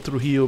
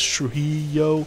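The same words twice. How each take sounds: First: The name is said with a Spanish accent. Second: The name is said with an American accent.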